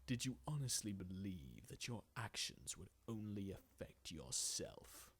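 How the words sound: The voice is deep and menacing.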